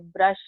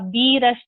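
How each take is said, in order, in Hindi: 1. इसकी शुरुआत सादी 'b' ध्वनि से होती है। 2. इसकी शुरुआत अक्षर के नाम 'bee' से होती है।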